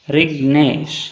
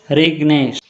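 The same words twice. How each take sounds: First: रिग्नेश broken in two, रिग, then नेश; split into syllables. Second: Said in the usual way. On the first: Shown as a demonstration. Teacher showing two syllables, रिग्नेश split as रिग-नेश. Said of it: "two syllables". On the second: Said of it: "म्हणजेच syllable पाडा".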